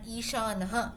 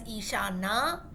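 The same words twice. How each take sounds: First: Ishanaha with a short "na" and an added "ha"; masculine "ha" ending. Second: Ishana ending on a long, open "naa"; long final A. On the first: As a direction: finish Ishanaha on an echoed breath, "na-ha". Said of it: "Ishanaha when we use as Pullingam". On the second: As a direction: draw out the last vowel of Ishana, with no "ha" after it. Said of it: "When you say as with an akaram". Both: Shown as a demonstration.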